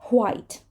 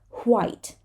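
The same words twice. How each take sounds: First: It starts with a breathy H before W. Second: The same.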